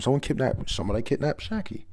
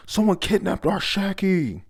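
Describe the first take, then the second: First: Raised pitch, little extra volume; half-hearted imitation of screaming; mild mock scream. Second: High, loud cry of alarm; acted scream. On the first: Retelling the crowd's alarm, mild mock screaming. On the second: Pirates crying out that Shaki was taken, acted screaming. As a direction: call it out like a panicked crowd. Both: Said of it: "They're all screaming".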